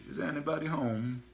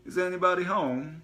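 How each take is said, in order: First: Said in the usual way. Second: Put-on high, loud foreign-accented Is anybody home; foreign accent call. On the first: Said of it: "somebody had just said". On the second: Gas man calling into the house, foreign accent. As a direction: sing it out in a jovial foreign accent. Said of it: "foreign accent from around the corner".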